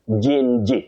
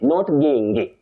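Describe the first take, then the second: First: It begins with a soft g, as in gin. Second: It begins with a hard g, as in go. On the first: The speaker calls it right. "this one you say gin" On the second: The speaker calls it wrong. "not ging"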